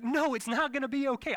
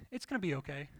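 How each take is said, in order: First: Loud, high-pitched frantic protest; panicked retort. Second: Reassuring. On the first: Anxious husband contradicting his calm wife, frantic protest. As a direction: throw the reassurance back, high and loud. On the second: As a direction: soothe it gently, imitating her. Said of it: "she's the type of person that's always like". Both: Retold or imitated.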